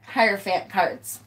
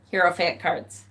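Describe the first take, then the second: First: "Hierophant" with one of her two pronunciations, first take; "Hierophant" in her first variant; one way of saying Hierophant. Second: "Hierophant" as HAIR-oh-fant, the other variant, quiet; "Hierophant" repeated in her second pronunciation, softly; other way of saying Hierophant. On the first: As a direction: say "Hierophant cards" the first of two ways, trailing off quietly. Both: Shown as a demonstration. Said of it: "I say it both ways".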